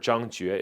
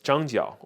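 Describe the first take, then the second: First: The second syllable is said as 'jue'. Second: The second syllable is said as 'jiao'. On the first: This is the older reading of the character. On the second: This is the usual modern reading of the name.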